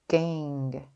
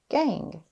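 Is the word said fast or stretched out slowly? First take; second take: stretched; fast. First: The word is stretched out slowly, sound by sound. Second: The word is said quickly as one smooth unit. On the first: "Let's tap and stretch" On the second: "Say it fast"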